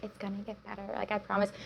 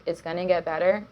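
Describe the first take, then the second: First: Soft, slightly sing-song platitude; mock cliché reassurance. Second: Said in the usual way. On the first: Guest parodies the cliché she told herself, mock reassurance. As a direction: imitate a trite pep talk, much softer. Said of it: "it sounds really cliche".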